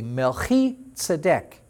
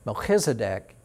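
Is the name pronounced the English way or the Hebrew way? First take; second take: Hebrew; English. First: The name is pronounced the Hebrew way. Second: The name is pronounced the English way. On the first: "turns out to be" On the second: "Melchizedek in English"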